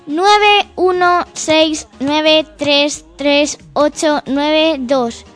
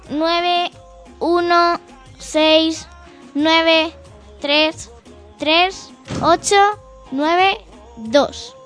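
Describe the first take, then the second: First: The number is read at a faster pace. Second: The number is read more slowly.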